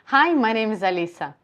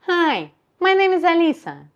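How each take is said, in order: First: The voice is at its ordinary natural pitch. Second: The voice sounds raised and nasal. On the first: "I'm talking to you in my natural position" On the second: "So higher position and nasal"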